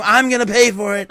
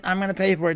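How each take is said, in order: First: Louder mock Trump boast. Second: Said in the usual way. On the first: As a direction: puff it up like Trump bragging. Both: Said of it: "saying Trump things".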